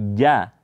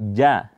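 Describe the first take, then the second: First: The consonant sounds like a voiced 'j'. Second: The consonant sounds like a voiced 'j'.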